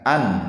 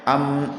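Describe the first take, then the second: First: The syllable ends in a clear n sound. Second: The syllable ends in an m sound. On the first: The speaker calls it right. "dibaca eh, seperti tanwin misalkan an" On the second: The speaker calls it wrong. "atau am, im, um, tidak di e, dimasukkan ke huruf yang lain"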